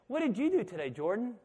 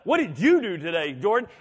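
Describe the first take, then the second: First: It sounds like a friendly, curious question. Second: It sounds annoyed and accusing.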